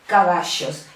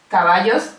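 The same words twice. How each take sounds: First: The middle consonant sounds like sh. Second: The middle consonant sounds like a plain y. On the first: "es como si fuera una S y una H" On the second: "queda tal cual"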